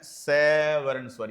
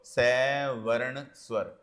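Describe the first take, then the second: First: Said in the usual way. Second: Slow dictation. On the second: Shown as a demonstration. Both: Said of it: "यहीं लिख देता हूं".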